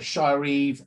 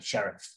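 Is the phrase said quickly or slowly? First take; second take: slowly; quickly. First: It is said slowly as two separate words. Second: It is said quickly as one short word.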